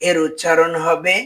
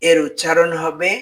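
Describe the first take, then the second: The two takes are said the same way.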